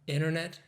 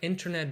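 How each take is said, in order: First: The T after the N is dropped. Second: The T after the N is clearly pronounced.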